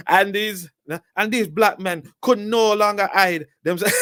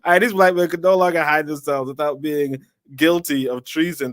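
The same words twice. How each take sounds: First: Exaggerated high-pitched Jamaican accent for the quote; over-the-top Jamaican accent. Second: Put-on lighter Jamaican accent, a bit higher than usual; toned-down Jamaican accent. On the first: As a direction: ham up a Jamaican accent, far too much. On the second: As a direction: ease back to a milder Jamaican accent. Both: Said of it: "let's just do a Jamaican accent".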